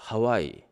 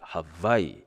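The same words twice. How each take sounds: First: Hawaii is said with the familiar English sounds. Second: Hawaii is said with the native Hawaiian sounds. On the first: The speaker calls it wrong. "I thought Hawaii, W A" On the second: The speaker calls it right. "real Hawaiian translation, uh, pronunciation"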